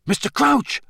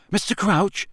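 First: High, raised-voice call; loud call. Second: Cautious, higher-pitched questioning call. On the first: Harry to the collapsed man, loud and urgent. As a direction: call his name sharply to get through to him. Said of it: "Harry said loudly". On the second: Harry approaching the raving man, cautiously. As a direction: call his name warily, pitched up. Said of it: "said Harry cautiously". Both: A narrator's reading.

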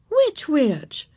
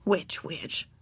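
First: Higher questioning teacher voice; lightly voiced teacher's query; asking teacher. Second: Soft, lower musing; private thought. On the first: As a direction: ask the child to explain. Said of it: "asked Miss Binny". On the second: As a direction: murmur it to yourself. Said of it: "thought Ramona". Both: A narrator's reading.

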